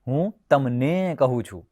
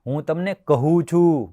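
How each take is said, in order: First: The second word carries the stress. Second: The final verb carries the stress. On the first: It is told to you, nobody else. "તમને એટલે બીજા કોઈને નહીં" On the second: I am only telling, nothing else. "કહું છું એટલે એના સિવાય કશું નહીં"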